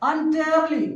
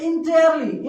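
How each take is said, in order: First: The first vowel sounds like 'un'. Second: The first vowel sounds like 'in'. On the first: The speaker calls it right. "अ का sound कैसे होते देखिए" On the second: The speaker calls it wrong. "कुछ लोग पढ़ते हैं इसको इंटेयरली। इंटेयरली नहीं पढ़ना"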